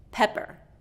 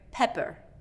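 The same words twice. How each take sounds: First: The first vowel is short. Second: The first vowel is short.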